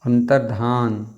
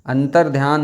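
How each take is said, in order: First: अंतर्धान slowly, ending "dhaan" with no y; slow, careful अंतर्धान; corrected form. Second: अंतर्ध्यान with a y glide, "dhyaan"; mistaken form. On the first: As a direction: stretch the full "dhaa" in अंतर्धान. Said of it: "धा पूरी बनती है". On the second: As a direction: read out the faulty अंतर्ध्यान. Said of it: "अंतर्ध्यान नहीं". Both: Shown as a demonstration.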